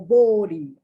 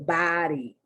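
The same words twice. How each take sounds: First: The O is a rounded British vowel. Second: The O is an open American 'ah' vowel. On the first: "That's what the British say. They go body" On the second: "the O is pronounced more like the ah. So we say body"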